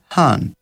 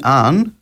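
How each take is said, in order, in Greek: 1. Αρχίζει με έναν εκπνευστικό ήχο τύπου h. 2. Αρχίζει κατευθείαν με το φωνήεν. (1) "λαλεί «χαν»" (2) "Αντί «αν»"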